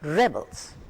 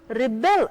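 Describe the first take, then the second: First: The stress is on the first syllable. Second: The stress is on the second syllable. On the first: It is a noun. "The stress is on the first part of the word" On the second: It is a verb. "the stress is on the second half"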